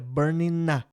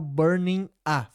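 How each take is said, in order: First: The n sound links into the a. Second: The two words are said separately. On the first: "fica burning na" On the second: "Outra emenda que você pode notar é o burning a"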